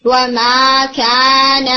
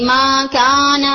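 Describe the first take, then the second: First: وَمَا كَانَ chanted slowly with the وَ; correct version. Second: مَا كَانَ recited slowly without the وَ; slow recited مَا كَانَ as the mistaken form; wrong version. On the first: Teacher giving the right reading, chanted. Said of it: "نہیں بلکہ وَمَا كَانَ". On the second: Teacher showing the wrong reading slowly. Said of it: "تو وہ مَا كَانَ نہیں بلکہ وَمَا كَانَ". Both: Shown as a demonstration.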